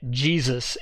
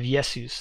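First: The word begins with an English J sound. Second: The word begins with a Y sound. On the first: "That's how we get Jesus" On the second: "the Germans still pronounced it with the Y sound"

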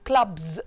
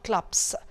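First: The final plural sound is a buzzing z. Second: The final plural sound is a hissing s. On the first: The speaker calls it right. "that's why I say clubs" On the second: The speaker calls it wrong. "not clubs"

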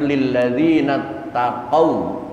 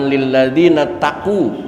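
First: The last word ends in an aw sound. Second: The last word ends in an oo sound. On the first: The speaker calls it right. "tapi lilladzina taqaw" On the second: The speaker calls it wrong. "bukan lilladzina taqu"

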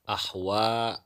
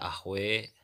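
First: The final vowel is an open a. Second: The final vowel leans toward e. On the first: "misalnya pada lafad ahwa" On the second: "dibaca ahwe"

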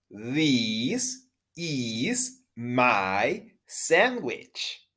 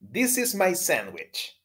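First: The sentence is said at a slower pace. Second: The sentence is said at a fast pace. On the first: "Una vez más" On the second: "Una vez más rápido"

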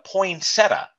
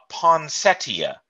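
First: The word is said the American way. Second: The word is said the British way. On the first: This is how it is said over here. "We just call it a poinsettia" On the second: This is how the guest says it. "but she calls it a poinsettia"

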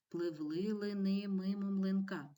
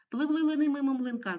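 First: It is read faster in a half voice. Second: It is read very quickly in a full voice. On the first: "Читаємо швидше упівголоса" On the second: "А тепер дуже швидко"

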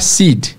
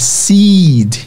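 First: The vowel is a short i sound. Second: The vowel is a long, stretched ee sound. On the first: The speaker calls it wrong. "e não é seed" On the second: The speaker calls it right. "é seed, sticking"

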